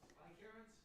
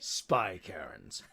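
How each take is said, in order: First: It is said in his normal voice. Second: It is said in a put-on character voice.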